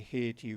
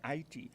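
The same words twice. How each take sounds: First: It is said the usual English way, 'Hay-tee'. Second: It is said with three syllables, like 'Ayiti'. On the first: This is the common outside pronunciation. The speaker calls it wrong. "when we say Haiti, we're mispronouncing the word" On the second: This is the country's own name for itself. The speaker calls it right. "actually called it right"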